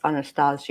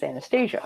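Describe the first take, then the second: First: The name is said with a Russian pronunciation. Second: The name is said with an American pronunciation. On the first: "if we're doing Russian pronunciation because it's a Russian name" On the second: "But if it's American pronunciation"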